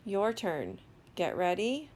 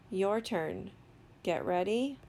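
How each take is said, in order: Both takes have the same delivery.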